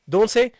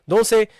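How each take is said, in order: The two takes are said the same way.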